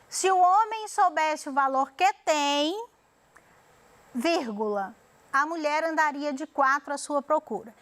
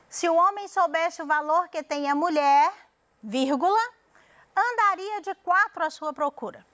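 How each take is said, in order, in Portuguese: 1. A pausa fica logo depois de 'tem'. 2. A pausa fica logo depois de 'mulher'. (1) "colocou a vírgula depois de tem" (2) "logo depois de mulher"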